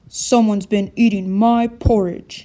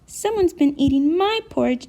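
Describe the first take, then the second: First: A big, deep voice. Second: A small, high baby voice. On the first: "in his great big voice" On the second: "in his baby voice"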